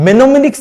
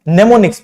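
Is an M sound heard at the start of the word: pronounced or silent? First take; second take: pronounced; silent. First: The word begins with an audible M sound. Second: The word begins with an N sound, M silent. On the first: The speaker calls it wrong. "इसको हम मेनोमिनिक्स नहीं पढ़ते हैं" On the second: The speaker calls it right. "नेमोनिक्स पढ़ते हैं"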